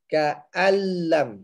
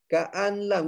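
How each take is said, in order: First: The n merges into the l without nasal hum. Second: The n sound is pronounced before the l. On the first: The speaker calls it right. "Terus masuk ke dalam lam. Jadi tidak dengung" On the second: The speaker calls it wrong. "Dia nak bunyi juga nun tu. So jangan"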